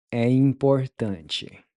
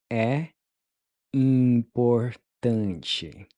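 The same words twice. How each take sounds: First: Said in the usual way. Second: "importante" stretched out very slowly; very slow model. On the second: Shown as a demonstration. Teacher modeling "É importante" very slowly. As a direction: draw the word out for learners. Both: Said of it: "How would you say it's important?".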